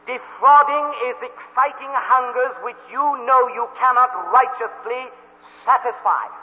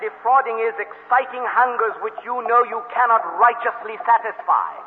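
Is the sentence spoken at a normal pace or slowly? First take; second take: slowly; normal. First: The sentence is spoken slowly and deliberately. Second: The sentence is spoken at a normal pace.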